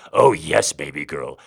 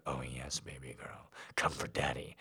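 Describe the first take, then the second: First: Loud grunt then dropping low. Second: Low, soft, half-whispered; hushed growl. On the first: Daddy grunting to his baby girl, loud then low. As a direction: push out the oh yes, then ease off. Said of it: "Daddy grunted". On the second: Daddy urging his baby girl, low and hushed. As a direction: breathe it low and close. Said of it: "Daddy growled". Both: A narrator's reading.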